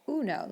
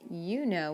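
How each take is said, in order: First: The first vowel is a pure Spanish 'oo' sound. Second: The first vowel is an English 'you' sound. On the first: The speaker calls it right. "we say uno" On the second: The speaker calls it wrong. "we don't say you know"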